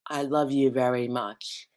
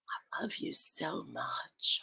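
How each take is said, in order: First: It is said in a plain, unloving voice. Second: It is said in a sexy, loving voice.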